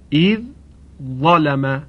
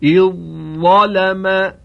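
First: The dh sound is heard before the next word. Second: The dh sound merges into the following z sound.

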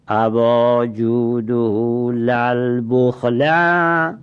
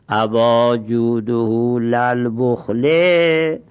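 First: The last word ends in an -a case vowel. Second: The last word ends in an -i case vowel. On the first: The negation word is redundant and stinginess is the object. "این بخله مفعول به باشه و این لا زایده باشه" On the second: The word la is a noun followed by a possessor. "اگر به جر تلفظ کنیم"

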